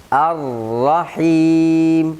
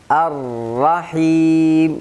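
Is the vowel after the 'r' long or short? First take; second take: short; short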